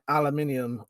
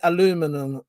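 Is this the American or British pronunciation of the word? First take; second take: British; American. First: It is said the British way, with five syllables. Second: It is said the American way, with four syllables. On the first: "We say, which is the correct way, which is the English way" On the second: "You lot say"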